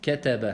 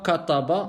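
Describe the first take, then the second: First: The consonants are said light and thin. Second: The consonants are said heavy and emphatic. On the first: The speaker calls it right. "on dit kataba" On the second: The speaker calls it wrong. "on ne dit pas kataba"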